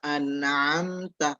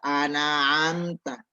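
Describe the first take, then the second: First: The middle consonant is closed with no added vowel. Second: An extra vowel is added after the middle consonant. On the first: The speaker calls it right. "Harusnya syiratal ladzina an'amta" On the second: The speaker calls it wrong. "mengfathahkan yang sukun"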